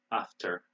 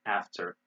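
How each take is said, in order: First: British "after" with ah vowel; "after" starting with a back open vowel; British pronunciation. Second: American "after" with front a; "after" as AFF-ter; American pronunciation. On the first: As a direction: say "after" as AHF-ter. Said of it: "they say bath in Britain". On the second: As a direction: say "after" with the vowel of cat. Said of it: "We say bath". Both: Shown as a demonstration.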